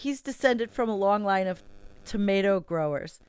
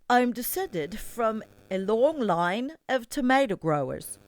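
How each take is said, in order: First: It is said in the speaker's own accent. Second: It is said in an Australian-sounding accent.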